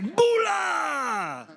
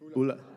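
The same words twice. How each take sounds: First: It is said with much more energy. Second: It is said with ordinary, low energy.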